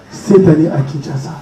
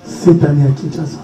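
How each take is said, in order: Both takes have the same delivery.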